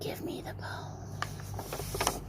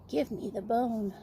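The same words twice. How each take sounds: First: It is said in a soft whisper. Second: It is said a little more loudly.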